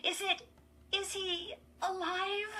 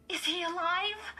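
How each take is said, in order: First: High, halting question, throat tight; fearful. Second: High, louder anxious question; breathless urgency. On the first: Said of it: "her throat tight with fear". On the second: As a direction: press for an answer, breathlessly. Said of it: "Chris repeated breathlessly". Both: A narrator's reading.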